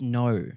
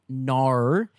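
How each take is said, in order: First: The vowel is slightly more closed. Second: The vowel is wide open, like 'nar'. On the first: The speaker calls it right. "it's no. Slightly closed" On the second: The speaker calls it wrong. "everyone always gets it wrong. It is not nar"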